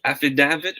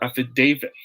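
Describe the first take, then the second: First: Affidavit as af-fi-DAV-it; short A as in "have" in affidavit. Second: Affidavit as af-fi-DAY-vit; DAY in the stressed middle of affidavit; long A in affidavit. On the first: Teacher quizzing viewers, affidavit with short-A DAV. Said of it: "Is it affidavit or affidavit". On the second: Teacher quizzing viewers, affidavit with long-A DAY. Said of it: "will be pronounced as day". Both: Shown as a demonstration.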